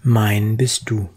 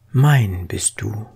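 The two takes are said the same way.

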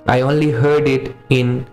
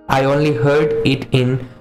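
The two takes are said the same way.

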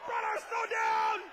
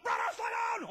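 First: Loud, drawn-out yell of "Brother, slow down!"; slow shout into the ear. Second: Yelling up over the wind; screamed. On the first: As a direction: bellow it slowly right into his ear. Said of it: "stick it behind my mouth". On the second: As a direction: shout to a brother ahead of you. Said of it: "I screamed up". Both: Retold or imitated.

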